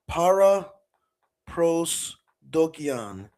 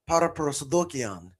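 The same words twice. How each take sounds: First: It is pronounced with English sounds and stress. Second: It is pronounced with Greek sounds and stress. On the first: "That's how you'd say it in English" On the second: "with the Greek pronunciation that I use"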